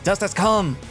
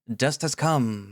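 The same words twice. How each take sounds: First: It is said loudly, with energy. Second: It is said flatly, without energy.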